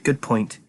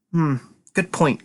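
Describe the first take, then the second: First: Said in the usual way. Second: Slow, musing good point; thoughtful. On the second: Acted. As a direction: weigh the idea slowly. Mulling it over, repeats.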